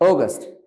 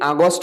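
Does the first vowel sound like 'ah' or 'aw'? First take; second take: aw; ah. First: The first vowel is a rounded 'aw' sound. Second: The first vowel is an open 'ah' sound. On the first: The speaker calls it right. "But it will be অগস্ট" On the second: The speaker calls it wrong. "আমরা অনেকে আগস্ট বলি এটাকে"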